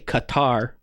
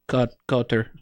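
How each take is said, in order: First: The name is said with an American pronunciation. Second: The name is said with a more native-like pronunciation. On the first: "as Americans would say" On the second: "I think it's more like Qatar or something like that"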